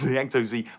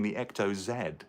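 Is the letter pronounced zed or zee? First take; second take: zee; zed. First: The letter is said the American way, zee. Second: The letter is said the British way, zed.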